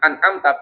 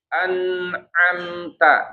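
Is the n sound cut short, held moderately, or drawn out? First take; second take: cut short; held moderately. First: The n sound stops abruptly with no flow. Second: The n sound flows slightly, then stops. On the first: The speaker calls it wrong. "berarti dia apa jatuhnya syiddah" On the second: The speaker calls it right. "Bainiyah, maka jangan an'amta tapi an'amta. Nah, ada sedikit aliran"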